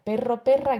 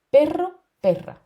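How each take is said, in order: First: Said in the usual way. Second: Perro and perra with the final O and A punched high and loud; stressed endings demo. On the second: Shown as a demonstration. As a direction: hit the last vowel of perro and perra clearly. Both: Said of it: "we change the O for an A".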